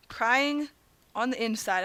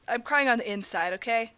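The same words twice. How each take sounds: First: "Crying" drawn out alone, pause, then "on the inside"; broken up for effect. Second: Said in the usual way. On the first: Real, not acted. Gamer repeating his woe, "Crying", pause, "on the inside".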